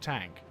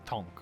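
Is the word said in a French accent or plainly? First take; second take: plain; French accent. First: It is said with a plain English vowel. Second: It is said with a French-accented vowel. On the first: "this isn't a tank" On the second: "his French accent overwhelmed his English, and uh, he says Tonk"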